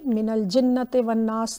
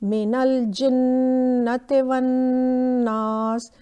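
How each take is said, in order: First: The doubled nasal sound is short and quick. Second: The doubled nasal sound is held long and nasal. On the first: The speaker calls it wrong. "ये मिनल जिन्नति वन्नास नहीं होगा" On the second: The speaker calls it right. "हमें थोड़ा सा इलोंगेट करना होगा"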